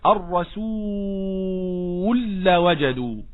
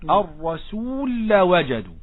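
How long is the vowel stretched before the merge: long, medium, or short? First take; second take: medium; short. First: The vowel before the merge is held moderately. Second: The vowel before the merge is held briefly. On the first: "توسط" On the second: "هذا قصر"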